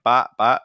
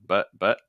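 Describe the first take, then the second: First: The vowel is full, open and tense. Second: The vowel is a short, relaxed schwa. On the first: The speaker calls it wrong. "A lot of people doing like bot bot" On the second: The speaker calls it right. "versus like but but"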